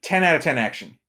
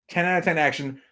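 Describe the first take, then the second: No difference in how they are said.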